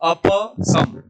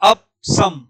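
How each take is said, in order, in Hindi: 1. p के बाद एक छोटा स्वर सुनाई देता है। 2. p के बाद कोई स्वर सुनाई नहीं देता। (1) "प में अ है तो अप बोलिए ... ये शुद्ध उच्चारण है" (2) "ये अशुद्ध उच्चारण"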